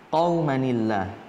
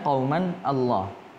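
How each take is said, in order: First: The words are joined with a 'ni' sound. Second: The two words are said separately, without linking. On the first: This is how it is actually recited. "dibacanya menjadi qaumanillah" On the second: This is how it is written.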